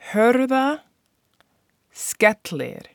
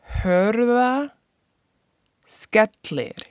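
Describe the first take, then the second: First: The name is said at normal speed. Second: The name is said more slowly.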